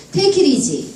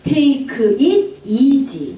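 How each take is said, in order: First: "Take it easy" run together as "tekirizi"; flowing, joined-up "Take it easy"; linked speech. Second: "Take it easy" sounded out slowly; slow, unlinked "Take it easy"; word-by-word reading. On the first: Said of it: "이렇게 들립니다". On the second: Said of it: "파닉스로 또박또박 읽다가". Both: Shown as a demonstration.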